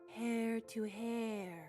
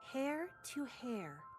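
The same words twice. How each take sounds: First: It is said in an eerie, spooky manner. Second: It is said in a careful, precise manner. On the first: An ancient, eerie figure is being channeled. "Kind of spooky. ... I was channeling the ancient sister Sin" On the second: Each strand of hair is pictured as perfect. "You sounded meticulous. ... I was visualizing each perfect strand of hair"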